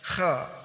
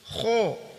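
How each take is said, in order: First: The vowel is open, sounding like 'kha'. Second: The vowel is rounded, sounding like 'kho'. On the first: The speaker calls it right. "Kha cukup begini, terbuka mulut" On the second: The speaker calls it wrong. "kesalahan, yaitu kho, so, do, to, bibirnya monyong-monyong"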